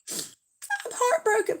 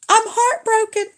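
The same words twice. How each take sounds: First: Much higher, softer and slowed mock sorrow; softer mock heartbroken. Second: Much higher, wailing mock heartbreak; mock heartbroken. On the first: Repeating it to the rival fan, softer mock sorrow. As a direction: let the heartbreak sink, hushed and drawn out. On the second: Answering a rival fan in chat, mock heartbroken wail. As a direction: cry out as if your heart just broke, playing it up. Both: Teased over her football team.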